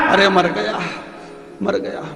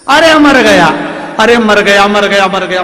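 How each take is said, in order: First: Groaning. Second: Loud, high cries of pain fading down; husband hit in the dark yelling in pain. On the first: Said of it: "अब चिल्लाए". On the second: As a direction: howl as if struck by a stick. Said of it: "पति चिल्लाए". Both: Acted.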